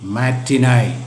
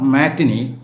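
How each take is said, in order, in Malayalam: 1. ഈ വാക്ക് 'eye' ശബ്ദത്തിലാണ് അവസാനിക്കുന്നത്. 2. ഈ വാക്ക് 'ee' ശബ്ദത്തിലാണ് അവസാനിക്കുന്നത്. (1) "ബട്ട് മാറ്റിനായ്" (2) "ഇറ്റ്സ് നോട്ട് മാറ്റിനി"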